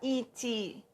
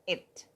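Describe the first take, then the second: First: An extra vowel sound follows the final t. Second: It ends cleanly on the final t. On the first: The speaker calls it wrong. "português é silabado. Em inglês a gente nunca fala it" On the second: The speaker calls it right. "mas it"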